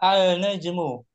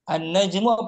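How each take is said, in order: First: The L is pronounced before the n. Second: The L is absorbed into the doubled n. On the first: The speaker calls it wrong. "Kalau tetap dibaca sulit" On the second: The speaker calls it right. "alif lamnya nggak dibaca"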